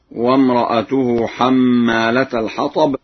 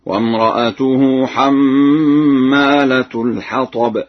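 First: Said in the usual way. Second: Slow recitation, حمالة as hammaalatu; u vowel on the final t of حمالة; damma on ta. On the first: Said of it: "قرأها ورش برفع التاء". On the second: Shown as a demonstration. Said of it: "برفع التاء هكذا".

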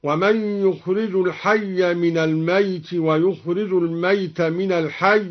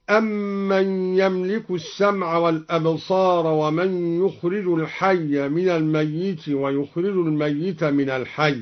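First: الميت as "al-mayt", one undoubled y; lightened ya in الميت. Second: Said in the usual way. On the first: Shown as a demonstration. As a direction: recite الميت short, as "mayt" without shadda. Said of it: "بتخفيف الياء هكذا". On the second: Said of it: "قرأ الدوري بتخفيف الياء".

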